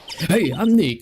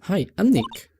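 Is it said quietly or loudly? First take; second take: loudly; quietly. First: It is said loudly. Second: It is said at a normal, quieter volume.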